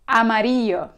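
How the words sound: It is said with a Spanish accent from Spain. "Con pronunciación de España"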